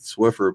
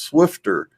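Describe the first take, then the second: First: The word is said without a T sound. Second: The word is said with a T sound. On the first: "we we always pronounced it Swiffer" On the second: "it was pronounced Swifter with a T in there"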